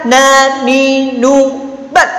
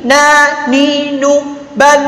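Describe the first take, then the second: First: "ban" very short, nasal sound blocked; wrongly stopped N. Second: "ban" with a long, drawn-out N; wrongly released N. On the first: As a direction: cut "ban" dead on the N. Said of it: "jangan dibaca". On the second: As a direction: let the N of "ban" hum on. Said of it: "Kalau dibaca begini". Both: Shown as a demonstration.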